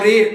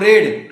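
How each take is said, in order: First: The vowel is long, like 'reed'. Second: The vowel is short, like 'red'. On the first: "बोल रहा हूं रीड" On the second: "बोल रहा हूं रेड"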